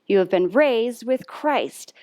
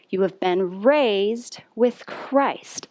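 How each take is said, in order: First: It is said at its fastest pace. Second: It is said at a slow, steady pace.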